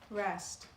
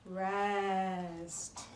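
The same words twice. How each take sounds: First: The word is said at a normal pace. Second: The word is said slowly and clearly enunciated. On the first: "I say" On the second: "I say again, slowly, enunciating"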